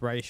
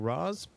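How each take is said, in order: First: The name ends with an 'sh' sound. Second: The name ends with a 'z' sound. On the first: This is the name's original pronunciation. The speaker calls it right. "The technical actual pronunciation is Raish" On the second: This is how the show says the name. The speaker calls it wrong. "because in this show they're calling him Raz"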